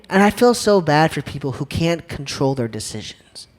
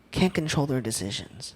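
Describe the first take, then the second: First: Said in the usual way. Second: Much softer, repeating it to himself; quiet echo. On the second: Real, not acted. Speaker echoing his point to the crowd, softly. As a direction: let the repeat drop almost to a murmur.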